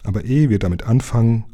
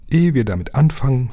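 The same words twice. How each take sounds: First: Said in the usual way. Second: Higher interjection, falling at the end; ins Wort fallend. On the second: A narrator's reading. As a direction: cut in on EHE WIR DAMIT ANFANGEN with a raised voice. (höher einsetzend ins Wort fallen) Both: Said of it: "fiel ihm der Scheinriese ins Wort".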